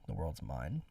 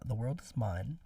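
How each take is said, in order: First: The word 'is' is contracted onto 'world'. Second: The word 'is' is said as a full syllable. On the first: The speaker calls it right. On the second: The speaker calls it wrong.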